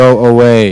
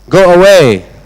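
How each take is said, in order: First: It is said calmly, without shouting. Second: It is said loudly, as a shout.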